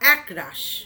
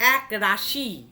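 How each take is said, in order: First: The final vowel is dropped. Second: The final vowel is pronounced.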